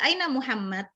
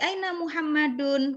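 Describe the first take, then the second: First: The name ends without a final -un ending. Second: The name ends with a final -un ending. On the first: It is casual everyday speech. "ngomong biasa" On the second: It is the full form used for study. "Nggak perlu lagi"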